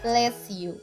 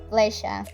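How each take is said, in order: First: The s and y sounds stay separate. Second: The s and y merge into a sh sound. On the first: The speaker calls it wrong. "That is the writing way" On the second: The speaker calls it right. "the correct way is pleasure"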